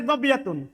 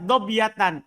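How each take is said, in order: First: The word ends with the vowel u plus n. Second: The word ends with the vowel a plus n. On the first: The word is the predicate of ka'an. "Kalau anda baca dobiyatun, berarti khobar ka'an" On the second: The word is the subject of ka'an. "Kalau dibaca dobiyatan, itu beramal"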